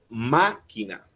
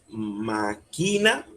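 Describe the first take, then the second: First: The stress is on the first syllable. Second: The stress is on a later syllable. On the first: The speaker calls it right. "la fuerza está en la primera A" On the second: The speaker calls it wrong. "Nosotros no decimos máquina"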